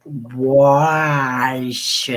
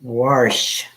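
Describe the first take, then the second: First: Wash stretched out long, without the R; exaggerated pronunciation. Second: Wash said with an R, as warsh; accented pronunciation. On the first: Mock-correcting herself for friends, Wash hugely drawn out. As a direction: draw the vowel of Wash right out. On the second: Friends teasing her accent, Wash said as warsh. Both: Shown as a demonstration.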